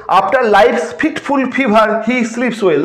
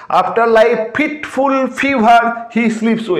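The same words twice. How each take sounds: First: Verse read slowly, word by word; slow recitation. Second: Each f in fitful and fever pressed slowly; slow stressed recitation. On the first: Teacher reading the example line slowly to students. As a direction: dwell on each f sound. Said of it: "next হচ্ছে". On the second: Teacher marking the f sound for students. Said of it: "এই এফ এর repetition". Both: Shown as a demonstration.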